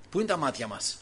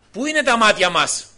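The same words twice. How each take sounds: First: Said in the usual way. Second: Louder insistent question, stress on είναι; louder repeat. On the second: Real, not acted. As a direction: push the question out to the whole church.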